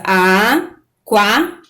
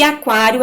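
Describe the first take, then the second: First: "Aquário" very slowly as a, quá, rio; syllable by syllable. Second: Said in the usual way. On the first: Shown as a demonstration. Teacher shows the diphthong in aquário, drawn-out separate syllables. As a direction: break "Aquário" into three held pieces with pauses. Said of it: "quando eu separo a sílaba".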